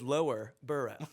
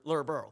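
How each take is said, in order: First: It is said carefully, with every syllable clear. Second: It is said quickly, with the name squashed together. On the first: This is the proper form of the name. "but it is" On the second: This is how locals say it. "you say it so quick"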